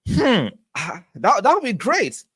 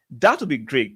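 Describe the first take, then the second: First: High, delighted lift on would be great; light up at the thought of a Kai hat-trick; excited. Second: Said in the usual way. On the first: Real, not acted. Streamer reading a chat prediction of a Kai hat-trick, high and delighted.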